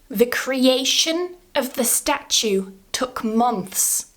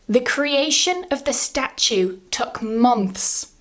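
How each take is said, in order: No difference in how they are said.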